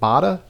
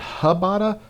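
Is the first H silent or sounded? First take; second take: silent; sounded. First: The name starts without an H sound. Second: The name starts with an H sound.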